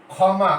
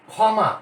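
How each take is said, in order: First: ক্ষমা with a push on ক্ষ, said as খমা; stress on first syllable. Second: ক্ষমা said as খমা with a stressed first syllable; pronunciation demo. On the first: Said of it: "ক্ষয়ের উপরে একটা ঝোঁক পড়ছে". (ক্ষ-এর উপর ঝোঁক দিয়ে ক্ষমা) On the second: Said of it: "ক্ষমা যখন আমরা উচ্চারণ করব". (ক্ষমা শব্দটি খমা করে উচ্চারণ) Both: Shown as a demonstration.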